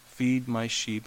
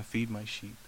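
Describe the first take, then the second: First: Slow, deliberate repeat of Feed my sheep. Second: Much softer, lower, near a hush; soft command. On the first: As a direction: draw each word out firmly. Jesus repeats the commission. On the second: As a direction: say it quietly, like a tender charge. Jesus commissions Peter. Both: Acted.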